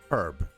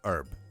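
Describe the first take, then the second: First: The h sound at the start is pronounced. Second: The h sound at the start is dropped. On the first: The speaker calls it right. "it should be herb, because there's an H for a reason" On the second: The speaker calls it wrong. "not herb"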